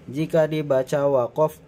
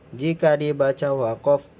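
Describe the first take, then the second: No difference in how they are said.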